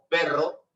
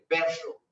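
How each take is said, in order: First: The double R is a standard trill. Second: The double R is an Andean-style R. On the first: "como nosotros cuando decimos perro" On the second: "ellos lo utilizan con una hendidura ahí"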